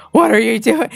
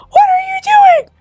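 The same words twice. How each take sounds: First: Said in the usual way. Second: High, loud screaming What are you doing; shocked shout at mom; panicked shout. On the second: Retold or imitated. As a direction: yell at her to stop.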